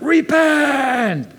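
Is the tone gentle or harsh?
harsh. It is said harshly, with a wrathful tone. The speaker calls it wrong. "I think the tone is not repent. ... The tone is not wrath"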